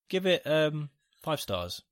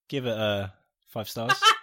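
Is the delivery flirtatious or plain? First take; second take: plain; flirtatious. First: It is said in a plain, neutral tone. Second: It is said in a cheeky, flirtatious tone. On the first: "So this is without a wink" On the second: "This is with a wink"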